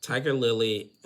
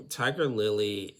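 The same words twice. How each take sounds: The two takes are said the same way.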